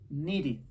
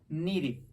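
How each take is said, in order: No difference in how they are said.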